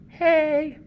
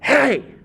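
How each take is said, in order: First: The word is said plainly at normal volume. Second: The word is yelled loudly and forcefully. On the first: It carries an ordinary meaning. "Instead of just saying" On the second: It carries a powerful meaning. "It's like when you yell"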